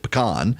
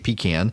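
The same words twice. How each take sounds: First: It is said the South Louisiana way. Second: It is said the South Georgia way.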